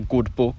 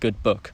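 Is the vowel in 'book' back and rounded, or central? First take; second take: back rounded; central. First: The vowel in book is a back rounded u. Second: The vowel in book is central, near schwa. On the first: "I don't say good book" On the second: "I say good book"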